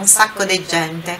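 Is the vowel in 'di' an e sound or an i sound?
e sound. The word di is said with an e vowel. This is the local Roman accent. "ele fala um sacco di gente"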